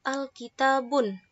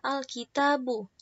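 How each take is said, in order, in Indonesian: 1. Kata ini berakhir dengan bunyi n tambahan. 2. Kata ini berakhir dengan vokal biasa, tanpa n. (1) "bukan dengan domah ten" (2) "dengan domah saja"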